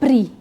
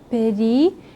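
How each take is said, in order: First: The first two consonants run together with no vowel. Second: A light vowel separates the first two consonants. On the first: The speaker calls it wrong. "para eu não falar pri" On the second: The speaker calls it right. "um auxílio para eu não falar pri"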